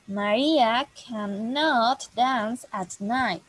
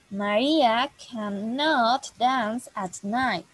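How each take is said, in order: First: The negative is said in full as cannot. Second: The same.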